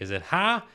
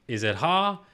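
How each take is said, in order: First: Ha with a bright flat a like hat. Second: Ha with a dark open ah. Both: Shown as a demonstration.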